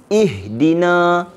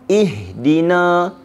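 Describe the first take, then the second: The two takes are said the same way.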